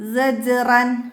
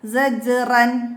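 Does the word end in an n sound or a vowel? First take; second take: n sound; n sound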